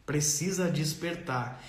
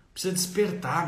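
First: "Precisa despertar" said slowly and softer, each word weighed; slow emphatic. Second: Said in the usual way. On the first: Real, not acted. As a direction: drive home "Precisa despertar" slowly and quietly.

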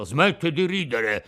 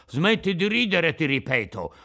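First: Mildly irritated, a bit louder; annoyed rebuke to the laughing mouth; piqued. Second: Threatening, higher and louder on "ridere"; menacing shout. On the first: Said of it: "disse Geppetto impermalito". ("Smetti di ridere" detto stizzito ma contenuto) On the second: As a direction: raise your voice to warn him. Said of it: "urlò con voce minacciosa". (urlato con voce minacciosa) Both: Acted.

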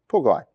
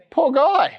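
First: Said in the usual way. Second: High sympathetic coo; mock pity. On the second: Pastor pities the lame man to the congregation, high and mock-sorry. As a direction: sigh it up high, all sorry for him.

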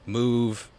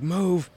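First: Said in the usual way. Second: Barked command. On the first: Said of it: "if he says something like". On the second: Retold or imitated. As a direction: snap "Move." like a drill sergeant. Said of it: "Fucking grilling into this kid".

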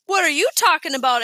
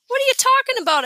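First: Mocking echo, stretched a little; mimicking. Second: High, loud, quick protest; indignant question. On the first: Alex copies Peter's protest, mock imitation. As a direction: parrot the question back to tease. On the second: Peter answers Alex's teasing about love, indignant. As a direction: fire it back high and defensive. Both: A narrator's reading. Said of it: "Alex mimicked".

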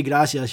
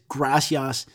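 First: "gracias" with a tapped Spanish R; proper Spanish pronunciation. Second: "gracias" with a broad English R. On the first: Shown as a demonstration. Podcaster shows what she doesn't say, Spanish "gracias". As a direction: say "gracias" quickly, Spanish R and vowels. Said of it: "she doesn't say gracias, she says gracias". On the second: Retold or imitated. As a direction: stretch "gracias" slowly, anglicized GRAH-see-ahs.

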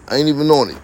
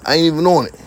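The two takes are said the same way.

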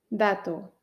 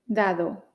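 First: Dato with a crisp t; Dato, t as in Teruel; T sound. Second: Dado with a soft d; Dado, d as in Dinamarca. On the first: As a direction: tap a dry t in Dato. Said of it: "dato con T de Teruel". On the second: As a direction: let the middle d of Dado go soft. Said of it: "con dos Ds de Dinamarca". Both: Shown as a demonstration.

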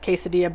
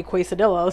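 First: "quesadilla" as "kay-sa-dee-a"; correct pronunciation. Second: "quesadilla" as "kway-sa-dilla", Ls sounded; deliberate mispronunciation. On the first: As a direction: say "quesadilla" with silent Ls, "keh-sa-DEE-ya". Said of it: "I know it's pronounced quesadilla". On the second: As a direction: say "quesadilla" wrongly on purpose, "kway-suh-DILL-uh". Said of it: "I wanted to say quesadilla". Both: Retold or imitated.

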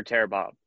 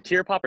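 First: "Tear" rhyming with "air", as in ripping; second pronunciation of Tear. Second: "Tear" rhyming with "ear", as in crying; first pronunciation of Tear. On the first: Interviewer offering the other title reading, "Tear" said as "tare". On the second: Interviewer checking the album title, "Tear" said as "teer". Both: Shown as a demonstration. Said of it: "is it [name] or [name]".

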